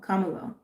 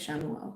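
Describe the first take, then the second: First: The name begins with a K sound. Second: The name begins with an SH sound. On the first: The speaker calls it right. "have I been mispronouncing his name?" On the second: The speaker calls it wrong. "I've been saying Shamuel"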